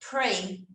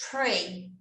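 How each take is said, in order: The two takes are said the same way.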